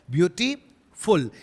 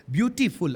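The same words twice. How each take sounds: First: beautiful drawn out as beauty, pause, फुल; beautiful in two separate slow chunks; split into syllables. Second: Said in the usual way. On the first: Shown as a demonstration. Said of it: "ये दो अलग अलग". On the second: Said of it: "beautiful कोई साथ में थोड़ी बोल देते हैं".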